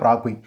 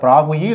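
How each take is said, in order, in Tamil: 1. இந்தப் பெயர் கூடுதல் உயிரொலி இல்லாமல் முடிகிறது. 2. இந்தப் பெயர் கூடுதல் 'ee' உயிரொலியுடன் முடிகிறது. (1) "இல்லை பிராகுய்" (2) "பிராகுயி இல்லை"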